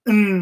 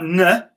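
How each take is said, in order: First: The n sound is clipped with no vowel after. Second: The n sound ends with an added uh vowel. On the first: The speaker calls it right. "N is the sound" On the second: The speaker calls it wrong. "It's not n. If it was n, the word would be ... pinner"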